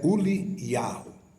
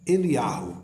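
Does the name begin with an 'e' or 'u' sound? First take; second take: u; e. First: The name begins with a 'u' sound. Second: The name begins with an 'e' sound. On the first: The speaker calls it right. "Mas é Uliarro" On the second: The speaker calls it wrong. "falado também em hebraico hoje moderno, Eliarro, que não é o Eliarro, corretamente com a pronúncia"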